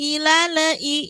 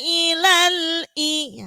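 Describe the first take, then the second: First: The L is released with a bouncing extra vowel. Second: The L is held firmly without any release. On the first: The speaker calls it wrong. "Jangan sampai ilale ilale i" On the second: The speaker calls it right. "maka harus ditekan, tidak boleh dilepas, nggak boleh memantul"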